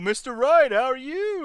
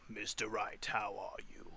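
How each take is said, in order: First: The voice is silly and clown-like. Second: The voice is rough and raspy. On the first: "That's too much like the clown" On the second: "that's too like raspy"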